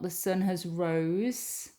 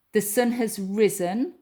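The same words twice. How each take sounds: First: Wrong form read slowly. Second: Risen said firmly and louder; correct form stressed. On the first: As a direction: drag out the wrong version. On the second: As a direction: stress risen as the right answer. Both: Shown as a demonstration.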